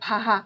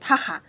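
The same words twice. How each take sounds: First: The middle consonant is a soft h sound. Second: The middle consonant is a rough kh-like sound. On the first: "वो लोग ह बोलने लगेंगे" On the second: "बहुत लोग क्या बोलेंगे"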